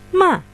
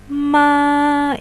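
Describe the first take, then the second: First: The pitch falls from high to low. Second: The pitch stays high and level. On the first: "untuk nada empat" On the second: "ini untuk nada satu"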